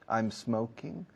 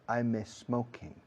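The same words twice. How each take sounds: First: The m runs straight into the s. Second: An extra e sound comes before the s. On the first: The speaker calls it right. "Pega la S de smoking a la M de I'm, por favor. Como si fuera uno solo" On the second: The speaker calls it wrong. "No digáis I'm smoking. No una letra E delante de la S en smoking"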